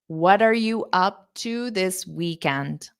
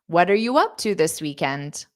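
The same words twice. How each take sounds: First: The sentence is spoken slowly. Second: The sentence is spoken quickly. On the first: "I'll say it slow again" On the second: "Now I'll say it fast"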